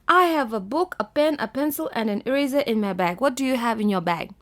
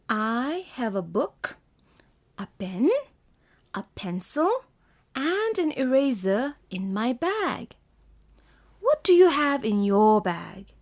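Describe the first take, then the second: First: It is read without pauses between items. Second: It is read with pauses between items.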